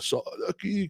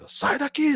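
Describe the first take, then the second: First: The phrase is said slowly and slurred. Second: The phrase is said clearly at normal speed. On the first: This is the real voice of someone talking in their sleep. "meio em câmera lenta" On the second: This is the voice heard inside the dream. "eu falando"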